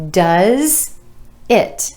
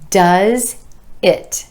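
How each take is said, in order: Both takes have the same delivery.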